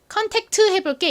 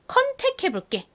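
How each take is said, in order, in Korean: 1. 끝 t 소리가 분명하게 발음됩니다. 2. 끝 t 소리가 빠집니다. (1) "컨택트 해볼게 이렇게 말하지 않고" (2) "그냥 컨택해볼게 어, 요렇게 많이 말합니다"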